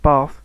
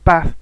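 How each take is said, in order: First: BATH with a long 'ar' sound, like 'barth'; long-vowel bath. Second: BATH with a short flat 'a' as in cat. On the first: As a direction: say 'bath' with a drawn-out 'ah'. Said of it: "as opposed to a long r sound". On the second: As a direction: say 'bath' the Scouse way, short vowel. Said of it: "such as a short a". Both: Shown as a demonstration.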